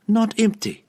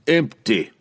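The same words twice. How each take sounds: First: High, loud superior correction. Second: Loud, firm answer. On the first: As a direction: correct him smugly. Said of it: "her superior tone". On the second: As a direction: state it firmly. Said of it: "Wulfgar answered firmly". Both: A narrator's reading.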